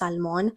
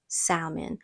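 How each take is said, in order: First: The L in the word is clearly pronounced. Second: The L in the word is left silent. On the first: This is the Spanish way of saying it. "in Spanish it's salmon and that's how I want to pronounce it" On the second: This is how some English speakers say it. "some people they say salmon and it's like why aren't you pronouncing the L's?"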